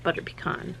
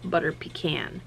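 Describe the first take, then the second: First: Butter pecan, with pecan said pee-KAHN; her pronunciation. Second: Butter pecan, with pecan said pee-KAN; the other pronunciation. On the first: Speaker to viewers, showing her pee-KAHN in a soft whisper. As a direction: say pecan as pee-KAHN, stress on the last syllable. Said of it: "that's how I say it". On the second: Speaker to viewers, showing the pee-KAN she doesn't use. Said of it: "I don't say". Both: Shown as a demonstration.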